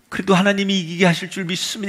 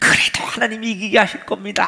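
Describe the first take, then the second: First: It is said weakly, in a tearful, faint voice. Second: It is said laughing, full of joy. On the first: The speaker forces out faith despite despair. "눈물을 흘리면서 다 기어 들어가는 목소리로 너무 힘들게" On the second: The speaker is confident of victory. "막 환희에 차서 웃으면서"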